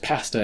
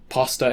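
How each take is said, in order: First: The word is said with a Canadian accent. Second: The word is said with an American accent. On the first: "is pasta in Canada" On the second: "pasta in America"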